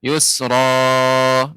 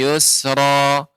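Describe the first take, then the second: First: The final vowel is stretched out too long. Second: The final vowel is held only briefly. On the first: The speaker calls it wrong. "ini terlalu panjang" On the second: The speaker calls it right. "Panjangnya dua harakat"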